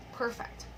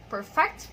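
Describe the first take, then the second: First: Perfect as an adjective, PER-fect; stress on first syllable. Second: Perfect as a verb, per-FECT; stress on second syllable. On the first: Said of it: "the second one is an adjective". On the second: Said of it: "the first one is a verb". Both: Shown as a demonstration.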